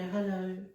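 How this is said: It is said in a sweet, innocent way.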